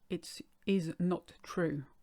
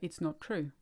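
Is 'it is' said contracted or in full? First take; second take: full; contracted. First: It is said as two full words. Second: It is is contracted to it's. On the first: It sounds too formal for everyday speech. The speaker calls it wrong. "You wouldn't say it is not true in real life" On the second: It is what people say in real life. The speaker calls it right. "you would say it's not true"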